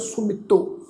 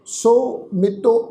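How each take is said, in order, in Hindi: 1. शब्द जुड़ा हुआ बोला जाता है, बिना किसी विराम के। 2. शब्द के बीच विराम के साथ दो भागों में बँटा हुआ है। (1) "ਇਕੱਠਾ ਉਚਾਰਨ ਕਰਨਾ ਹੈ" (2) "ਇਸ ਢੰਗ ਨਾਲ ਉਚਾਰਨ ਨਹੀਂ ਕਰਨਾ"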